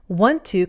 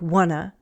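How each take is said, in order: First: Both words are said fully and separately. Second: The words are reduced and run together.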